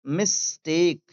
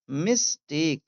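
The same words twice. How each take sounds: The two takes are said the same way.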